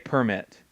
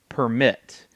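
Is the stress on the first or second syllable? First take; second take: first; second. First: The stress is on the first syllable. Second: The stress is on the second syllable.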